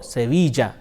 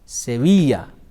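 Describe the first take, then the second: First: The double L sounds like an English J. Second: The double L sounds like an English Y. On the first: "It is pronounced either Y or J" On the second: "It is pronounced either Y or J"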